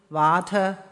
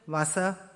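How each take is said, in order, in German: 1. Der mittlere Konsonant wird wie t ausgesprochen. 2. Der mittlere Konsonant wird wie s ausgesprochen. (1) "Im Niederdeutschen wurde nicht verschoben" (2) "In den oberdeutschen Dialekten haben wir nur verschobene Formen"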